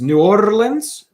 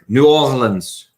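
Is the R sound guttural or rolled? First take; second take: rolled; guttural. First: The R is rolled with the tongue tip. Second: The R is guttural, made in the throat. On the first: "you have to roll your. So it is" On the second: "a brood R, which is more like a guttural sound, like a rrr"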